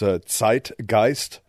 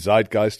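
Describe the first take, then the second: First: The word is pronounced the German way. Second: The word is pronounced the English way. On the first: "If I pronounce it properly in German" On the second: "English pronunciation, maybe Zeitgeist or something"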